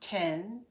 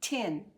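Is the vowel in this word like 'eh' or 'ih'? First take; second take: eh; ih. First: The vowel is a short open 'eh' sound. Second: The vowel is a short close 'ih' sound. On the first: "that would be the correct way to say it" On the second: "as though it were T I N"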